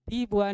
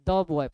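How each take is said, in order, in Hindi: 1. Article में लंबी 'ee' ध्वनि है। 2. आर्टिकल में छोटा और कमज़ोर स्वर है। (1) "दी बॉय नहीं" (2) "बल्कि द बॉय पढ़ेंगे"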